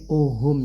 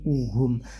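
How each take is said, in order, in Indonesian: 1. Vokal pertama condong ke arah o. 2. Vokal pertama adalah u yang jelas dan murni. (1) "jangan sampai miring uhum ya" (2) "bukan o tapi uhum"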